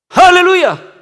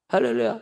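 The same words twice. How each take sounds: First: It is said loudly and forcefully. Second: It is said softly and weakly.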